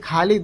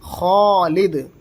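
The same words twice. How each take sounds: First: The first kh sound is light and thin. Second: The first kh sound is heavy and full. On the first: The speaker calls it wrong. "नहीं, ये गलत हो जाएगा।" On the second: The speaker calls it right. "असल तलफ़ुज़ होगा खालिद"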